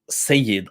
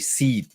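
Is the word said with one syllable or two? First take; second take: two; one. First: The word is said in full with two syllables. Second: The word is shortened to a single syllable. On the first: This is the full form. "they don't say Sayyid often" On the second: This is how North Africans say it. "they would just say Sid"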